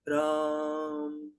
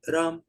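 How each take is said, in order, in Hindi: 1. शब्द लंबा खींचकर बोला गया है। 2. शब्द छोटा और झटके से बोला गया है। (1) "लंबा खिंच सकता है" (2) "कभी तो वो छोटा हो सकता है"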